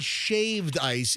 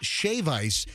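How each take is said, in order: First: The first word ends with a d sound. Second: The first word ends without a d sound. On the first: The speaker calls it wrong. "Don't say shaved ice" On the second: The speaker calls it right. "It's shave ice"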